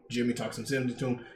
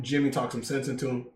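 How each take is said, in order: First: "Jimmy talks some sense into him" said softer and fast; quieter, quicker repeat. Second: Said in the usual way. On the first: Real, not acted. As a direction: toss the repeat off under your breath.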